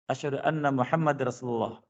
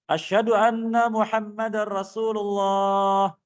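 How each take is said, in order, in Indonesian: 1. Frasa ini diucapkan dengan pelan dan lembut. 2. Frasa ini diucapkan dengan keras dan kuat. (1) "Lalu pelan lagi" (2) "Kemudian dikeraskan lagi"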